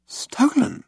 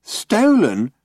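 First: Shocked. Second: Flat mocking echo of Stolen?; mimicking flatly. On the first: Ford's shocked question. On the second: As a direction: echo Stolen? in a dull drone. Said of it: "mimicked Marvin". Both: A narrator's reading.

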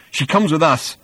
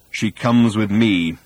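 First: Higher, firm counter-claim; insist, voice pushed up; insistent. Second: Very slow, measured claim; quiet menace. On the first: Arthur disputing Thor over the girl, insistent. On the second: Thor facing down Arthur, quietly menacing. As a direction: spell it out slowly, without raising pitch. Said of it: "he said quietly". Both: A narrator's reading.

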